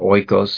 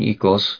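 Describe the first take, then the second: First: The word uses the seminary Greek pronunciation. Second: The word uses the modern Greek pronunciation. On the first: "if you believe Greek seminary" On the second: "I use the modern pronunciation"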